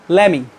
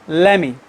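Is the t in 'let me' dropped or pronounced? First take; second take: dropped; dropped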